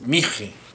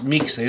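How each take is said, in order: First: The middle consonant sounds like 'h'. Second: The middle consonant sounds like 'ks'. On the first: The speaker calls it right. "es mije" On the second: The speaker calls it wrong. "no es mixe"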